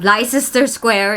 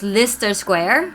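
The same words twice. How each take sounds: First: Every letter of the name is sounded as spelled. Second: The name is said in a shortened local form. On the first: The speaker calls it wrong. "This one is not Leicester Square" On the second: The speaker calls it right. "it's Leicester Square"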